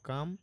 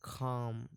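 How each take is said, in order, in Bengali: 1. প্রথম k ধ্বনিতে বাতাসের কোনো ফুঁ নেই। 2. প্রথম k ধ্বনিতে বাতাসের একটি ফুঁ আছে। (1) "আমরা বলি কয় আকারে কাম ও কাম, এভাবে বলে ফেলি" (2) "তো আমরা বলবো কি খাম"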